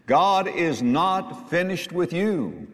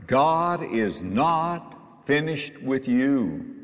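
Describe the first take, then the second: First: "God is not finished with you" slow and higher, each word weighted; repeated for emphasis. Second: "God is not finished with you" drawn out very slowly, word by word; deliberate declaration. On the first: Preacher repeating "God is not finished with you" to the church, emphatic. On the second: Preacher assuring the church "God is not finished with you", very slow and deliberate. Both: Real, not acted. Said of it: "I'll say it again for emphasis".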